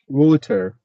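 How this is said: It is said with a British English accent. "And in British, it's maybe water"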